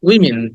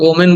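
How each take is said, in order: First: The first syllable sounds like 'wi'. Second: The first syllable sounds like 'oh'. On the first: The speaker calls it right. "Short ই" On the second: The speaker calls it wrong. "আমরা এটাকে ওমেন বলি"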